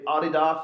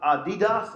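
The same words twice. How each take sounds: First: It is said with a British pronunciation. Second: It is said with an American pronunciation. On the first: "or as we say" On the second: "as the Americans say"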